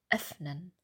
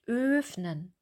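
First: The first vowel is short and open. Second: The first vowel is long. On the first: The speaker calls it right. "Der Unterkiefer ist weiter geöffnet und wir sagen den Laut schneller" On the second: The speaker calls it wrong. "Wir sagen auch nicht öffnen. Wir sagen es nicht lang"

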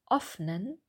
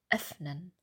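First: The first vowel is a back rounded vowel. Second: The first vowel is a front rounded vowel. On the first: The speaker calls it wrong. "Vorsicht, es ist nicht öffnen. Wir brauchen den Zungenmittelteil vorne" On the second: The speaker calls it right. "Wir brauchen den Zungenmittelteil vorne"

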